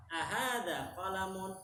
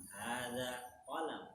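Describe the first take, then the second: First: "Ahada qalamun" slow, pitched up as a question; question intonation. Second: "hada qalam" slow, falling at the end; statement answer. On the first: Teacher modelling a conversational question, "Ahada qalamun" high and drawn out. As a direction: ask "Ahada qalamun" stretched out, higher. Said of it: "dalam berintonasi ketika ngobrol". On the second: Teacher modelling the full reply, "hada qalam" as a slow falling statement. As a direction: answer "hada qalam" evenly, drawn out and closing downward. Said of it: "harus sama seperti yang ditanyakan".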